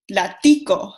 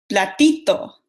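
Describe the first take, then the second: First: "platico" with -ico in place of -ito; Cuban diminutive. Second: "platito" with a plain t in the ending; Mexican diminutive. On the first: Student contrasting diminutives for the class, Cuban form. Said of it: "pero en Cuba dicen". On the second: Student contrasting diminutives for the class, Mexican form. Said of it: "en México decimos". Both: Shown as a demonstration.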